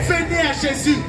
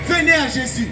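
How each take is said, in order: Both takes have the same delivery.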